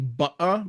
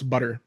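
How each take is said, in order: First: British accent, with a glottal T sound. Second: American accent, with no glottal T sound. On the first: "In British English, it would be butter" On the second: "in American English, it's butter. So there's no glottal sound in, in butter in American English"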